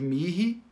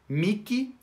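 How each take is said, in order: First: The middle consonant is not a K sound. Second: The middle consonant is a K sound.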